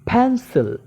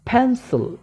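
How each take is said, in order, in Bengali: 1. প্রথম "p" বলা হয় বাতাসের ফুঁ সহ। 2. প্রথম "p" বলা হয় বাতাসের ফুঁ সহ।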